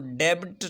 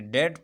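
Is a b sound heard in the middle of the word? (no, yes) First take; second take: yes; no. First: The b is pronounced, with an extra vowel. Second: The b is silent, one short syllable. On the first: The speaker calls it wrong. "हम इसको डेबिट नहीं पढ़ेंगे" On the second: The speaker calls it right. "बल्कि डेट पढ़ते हैं"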